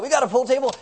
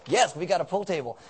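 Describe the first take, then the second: First: Higher-pitched incredulous question; mock astonished listener; surprised question. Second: Said in the usual way. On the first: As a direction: imitate someone amazed to hear it. Voices surprised congregant's question.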